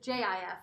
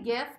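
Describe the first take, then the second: First: It starts with a soft J sound. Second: It starts with a hard G sound. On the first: "like peanut butter" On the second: "it's like the word gift without the T"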